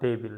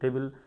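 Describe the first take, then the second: Both takes have the same delivery.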